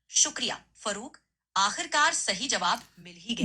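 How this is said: It is said with excited energy.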